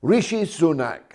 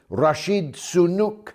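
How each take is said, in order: First: Said in the usual way. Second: "Rashid Sunuk", a garbled name with a d ending Rashid; Joe Biden. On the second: Retold or imitated. Monologuist mocking the President's slip, mangled "Rashid Sunuk". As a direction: mispronounce it "Rashid Sunuk", with "nuk" for "nak". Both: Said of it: "as Joe Biden called him".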